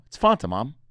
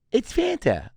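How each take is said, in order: First: "Fanta" as FAHN-tuh; open-A pronunciation. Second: High mock-mom voice, "Fanta" as FAN-tuh; short-A pronunciation. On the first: Retold or imitated. Son correcting mom, "Fanta" as FAHN-tuh, insistent. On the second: Mom correcting son on "Fanta" as FAN-tuh, shrieky-high mimicry. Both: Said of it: "whether it's pronounced Fanta or Fanta".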